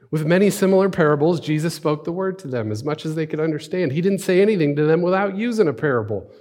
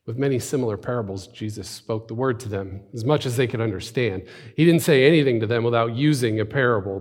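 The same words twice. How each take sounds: First: High, loud, energetic narration; emphatic scripture reading. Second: Even, restrained narration of scripture; scripture reading. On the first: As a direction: proclaim the passage with lifted voice. Second, livelier reading of passage. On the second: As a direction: read the passage plainly and evenly. First reading of the passage. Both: Acted.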